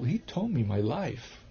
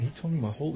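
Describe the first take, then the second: First: "he told me my life" said slowly, each word weighted; slow, weighted telling. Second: Said in the usual way. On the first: Real, not acted. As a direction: let it sink in, word by word. Slowed restart for emphasis.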